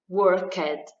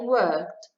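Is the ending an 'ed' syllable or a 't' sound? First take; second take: ed syllable; t sound. First: The ending is a separate ed syllable. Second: The ending is a short t sound. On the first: The speaker calls it wrong. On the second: The speaker calls it right.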